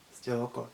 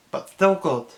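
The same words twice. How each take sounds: First: 1 soft echo. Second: Halting, higher, aching alien voice; heartfelt Stitch. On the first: Real, not acted. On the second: Retold or imitated. Stitch telling the councilwoman about his family, aching. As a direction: plead it with heartache. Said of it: "with the heartache".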